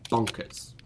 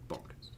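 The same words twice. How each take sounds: First: Said in the usual way. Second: Whispered echo of Bonkers, breathy. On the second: Shown as a demonstration. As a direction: whisper the word Bonkers back to yourself. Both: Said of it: "repeated as whisper".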